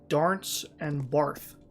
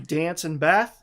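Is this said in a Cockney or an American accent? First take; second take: Cockney; American. First: It is said in a Cockney accent. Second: It is said in an American accent.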